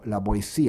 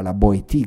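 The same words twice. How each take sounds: First: The name is said in its modern pronunciation. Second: The name is said exactly as it is spelled. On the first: This is how the name is said today. "Oggi noi diciamo la Boétie" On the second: This is how the name was said in its own era. "allora si diceva la Boétie come si scrive"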